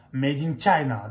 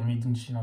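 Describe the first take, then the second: First: Made in China with an English "made" and "China" starting with ch, louder. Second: Mock the clumsy French reading of Made in China; French-style Made in China. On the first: Showing the viewers the right way, English-style Made in China. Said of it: "il faut dire Made in China". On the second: Correcting a colleague's bad English, Made in China said French-style. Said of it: "c'est dégueulasse de dire Made in China". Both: Shown as a demonstration.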